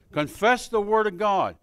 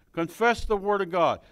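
The two takes are said the same way.

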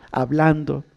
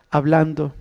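No difference in how they are said.

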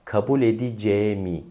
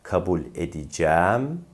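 First: "edeceğimi" as e-di-ce-mi with closed e. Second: "edeceğim" as e-di-cæm with a long open æ. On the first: Teacher contrasts the e, "edeceğimi" with closed e. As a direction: contract "edeceğimi", narrow e before mi. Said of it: "Bunlar farklı". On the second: Teacher contrasts the e, "edeceğim" with open æ. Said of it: "E farklı". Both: Shown as a demonstration.

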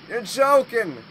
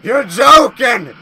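First: Said in the usual way. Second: Loud, disbelieving yell; a real startled shout of disbelief; shocked shout. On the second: Real, not acted. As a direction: belt it out in shock. Shocked at the monster.

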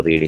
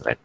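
First: "read" with a long ee, like reed; present-tense pronunciation. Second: "read" with a short e, like red; past-tense pronunciation. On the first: Teacher showing students the present tense, "read" said as reed. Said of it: "for present tense, you read it as". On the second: Teacher showing students the past tense, "read" said as red. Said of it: "for past tense, it is pronounced as". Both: Shown as a demonstration.

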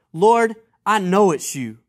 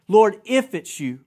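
First: Firm, louder declaration of I KNOW; confident misreading. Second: 'if' punched right after 'Lord'; stress on IF. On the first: Preacher mock-misreads Peter to the congregation, confidently. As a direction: state 'I know' with certainty. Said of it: "maybe I didn't read that right". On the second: Preacher rereads Peter's words correctly, stressing 'if'. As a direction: lean on the word 'if'. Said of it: "Underline that word in your Bible". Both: Shown as a demonstration.

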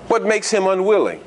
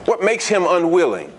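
First: "What" leaned on, rest falling away; the question pressed on "What"; stress on WHAT. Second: "makes" leaned on, "What" lighter; the question pressed on "makes"; stress on MAKES. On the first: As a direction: hit "What" hardest and let "makes him unwilling" drop. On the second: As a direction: hit "makes" hardest in the repeat. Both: Shown as a demonstration.

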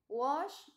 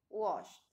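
First: Said in the usual way. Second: "washed" with ED as a bare T; final T sound. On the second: Shown as a demonstration. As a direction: say "washed" as washt, one syllable. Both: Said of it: "pronunciamos la T".

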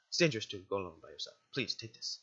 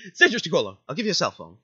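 First: Quick, low, gentle guardian caution; understated motherly concern; motherly warning. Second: Louder, amused echo of the warning; joking, hammed-up caution; laughing mock warning. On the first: Acted. Guardian warns, before the echo. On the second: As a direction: quote it loudly through laughter. Player echoes the line as joke.

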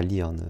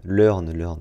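First: Learn said as "leern", with an ee; mispronounced Learn. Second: Learn said as "leurn", with an eu vowel; self-correct to "leurn" for Learn. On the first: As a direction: quote the wrong Learn, as "leern". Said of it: "pas Learn". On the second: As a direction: Learn with a rounded French eu, repeated. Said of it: "pardon, pas". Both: Shown as a demonstration.

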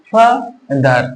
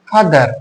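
First: "father" pulled apart into ফা and দার; two separate beats for "father", teaching the syllables; split into syllables. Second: Said in the usual way. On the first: Shown as a demonstration. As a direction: pause inside "father", right after ফা. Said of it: "দুইবারে উচ্চারণ করতে পারছি". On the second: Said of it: "দেখো, তারপরে".

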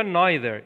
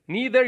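First: "neither" starting like "nigh"; NYE-ther pronunciation. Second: "neither" starting with a long "nee"; NEE-ther pronunciation. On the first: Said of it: "اینجا تلفظش کرد". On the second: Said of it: "هر دو درسته". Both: Shown as a demonstration.

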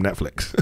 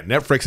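First: Said in the usual way. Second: "Netflix" said wrong as "Netfricks"; mimicked mispronunciation. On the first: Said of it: "Netflix is different from Netflix". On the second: Shown as a demonstration. Guest correcting the kid, "Netflix" mangled as "Netfricks". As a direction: put an R for the L in "Netflix". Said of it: "is different from Netflix".

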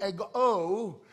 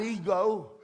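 First: "ego" with the final O stressed; "ego" ending on a long, weighted O. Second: "ego" said the everyday English way, first syllable stressed; "ego" with a light final O. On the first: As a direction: lean hard on the last syllable of "ego". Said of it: "the emphasis on the O". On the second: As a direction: put the weight on the E of "ego". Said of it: "not ego, the emphasis on the O". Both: Shown as a demonstration.

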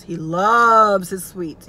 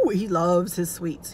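First: "loves" drawn out long and slow; stress on LOVES. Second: Said in the usual way. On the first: Real, not acted. Daughter on dad's sweet tooth, "loves" stretched for emphasis. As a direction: stretch and swell the word "loves".

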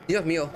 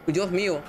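No difference in how they are said.

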